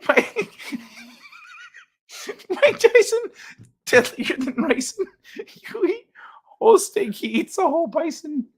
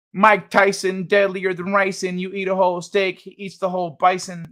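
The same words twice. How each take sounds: First: High, squeaky words through laughter; laughing helplessly. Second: Said in the usual way. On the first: Real, not acted. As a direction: try to read while cracking up. Cracks up reading a chat rhyme.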